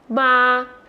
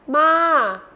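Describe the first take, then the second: First: The pitch stays level in the middle. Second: The pitch falls from high to low.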